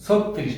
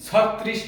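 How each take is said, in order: First: ছত্রিশ as "sot-trish", closed o; correct o-vowel form. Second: ছত্রিশ as "sawt-trish", open vowel; wrong open-vowel form. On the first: Teacher repeating the right ছত্রিশ, sot-trish with o. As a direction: round the first vowel of ছত্রিশ to o. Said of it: "ওকার দিয়ে উচ্চারণ করতে হবে". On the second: Teacher rejecting ছত্রিশ said with open vowel, sawt-trish. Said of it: "হবে না". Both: Shown as a demonstration.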